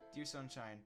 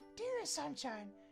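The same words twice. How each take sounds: First: It is said in the speaker's own voice. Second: It is said imitating the poem writer's voice.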